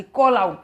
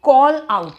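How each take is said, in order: First: Said in the usual way. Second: Teacher shouting the phrase to show its meaning; loud call out. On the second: Shown as a demonstration. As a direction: call out punched louder. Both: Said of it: "out शब्द से ही चिल्लाने वाली feeling आती".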